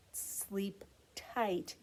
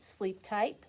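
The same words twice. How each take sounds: First: Soft whispered goodnight. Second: Said in the usual way. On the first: Real, not acted. Bedtime goodbye to children.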